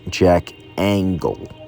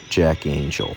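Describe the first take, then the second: First: The surname sounds like 'angle', with a hard g. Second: The surname sounds like 'angel', with a soft g. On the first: The speaker calls it wrong. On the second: The speaker calls it right.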